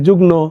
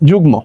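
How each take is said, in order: First: The cluster is pronounced with an n sound. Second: The cluster is pronounced with an m sound. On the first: The speaker calls it wrong. "অনেকে বলে যুগ্ন, উচ্চারণটি করতে পারে না" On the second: The speaker calls it right. "যুগ্ম গ ময়কার"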